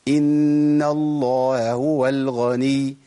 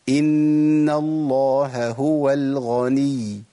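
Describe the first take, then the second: Both takes have the same delivery.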